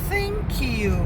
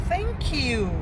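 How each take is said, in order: The two takes are said the same way.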